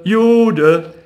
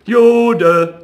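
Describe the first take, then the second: First: High, loud repeated taunt; jeering call. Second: Much higher, loud taunting cry; jeering call. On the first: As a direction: chant it after him. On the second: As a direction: call it out after him. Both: A narrator's reading. Street boys chasing Rothschild, jeering loudly. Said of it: "rannten mit dem Ruf".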